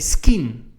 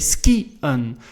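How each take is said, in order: First: The i and e merge into one sound. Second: The i and e are pronounced separately. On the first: The speaker calls it wrong. "if it wouldn't be there, we would say skien, right? Doesn't make sense" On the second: The speaker calls it right. "we have to pronounce the I and the E separately"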